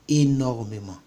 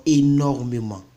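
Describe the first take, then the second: No difference in how they are said.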